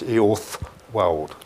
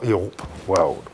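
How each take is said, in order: First: The middle consonant is a 'th' sound. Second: The middle consonant is a 'p' sound. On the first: The speaker calls it right. "which is pronounced TH. So it's Eothwald" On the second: The speaker calls it wrong. "not Eothwald"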